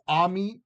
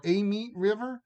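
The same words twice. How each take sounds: First: "a meet" said as "ah meet"; first vowel AH. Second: "a meet" said as "AY meet"; long AY sound on the "a" of "a meet river". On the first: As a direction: open AH sound on the "a" of "a meet". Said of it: "So I don't know if it's". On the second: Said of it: "Like, just long A?". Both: Shown as a demonstration.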